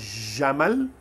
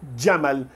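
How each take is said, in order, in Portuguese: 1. Começa com um som de j simples. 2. Começa com um d antes do j. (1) "Em vez de falar Jamal" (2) "Imagine um D pequenininho no comecinho"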